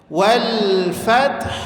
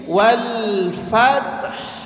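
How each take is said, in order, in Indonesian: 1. Bunyi h di akhir jelas dipertahankan. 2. Bunyi h di akhir jelas dipertahankan.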